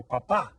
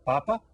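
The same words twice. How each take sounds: First: Papa with the last syllable punched, pa-PA; stress on last syllable. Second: Papa with the first syllable stressed, PA-pa. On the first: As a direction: offer papa as the second choice, pa-PA. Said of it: "if we add the accent mark". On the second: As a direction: offer Papa as the first choice, PA-pa. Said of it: "which of these words have we been studying". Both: Shown as a demonstration.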